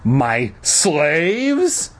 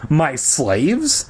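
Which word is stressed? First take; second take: slaves; neither. First: The stress is on the word slaves. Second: It is said plainly with no special stress.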